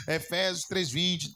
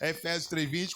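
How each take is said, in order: First: Efésios três vinte read slowly, três stressed; slow emphatic reading. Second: Said in the usual way. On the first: Real, not acted. Pastor slowly announcing the verse for the screen. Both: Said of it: "bota aí no telão".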